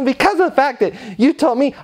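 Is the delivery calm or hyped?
hyped. It is said in a hyped, rising salesy tone. The speaker calls it wrong. "we don't want to do that"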